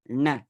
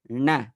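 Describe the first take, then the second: No difference in how they are said.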